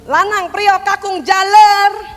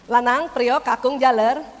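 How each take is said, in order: First: It is called in an angry voice. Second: It is called higher but still friendly.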